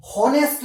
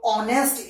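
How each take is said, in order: First: हॉनेस्ट with a clear h at the start; wrong h pronunciation. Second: ऑनेस्ट starting straight on the o vowel, no h; silent h. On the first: Teacher shows the wrong way to say honest, h sounded. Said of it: "हॉनेस्ट नहीं होता". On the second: Teacher gives the correct honest, silent h. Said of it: "एच इसके अंदर silent होता है". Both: Shown as a demonstration.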